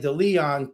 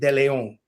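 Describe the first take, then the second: First: The name has an anglicized English pronunciation. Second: The name has a Spanish pronunciation.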